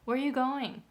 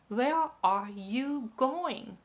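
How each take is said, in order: First: The first words are quick, the last drawn out. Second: Every syllable gets the same even beat. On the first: The speaker calls it right. "Where are you? Becomes really short, and going becomes long" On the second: The speaker calls it wrong. "They are putting all the rhythm like ta ta ta ta"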